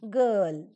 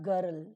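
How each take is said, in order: First: The r sound is silent in the word. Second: The r sound is pronounced in the word. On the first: The speaker calls it right. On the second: The speaker calls it wrong. "not girl"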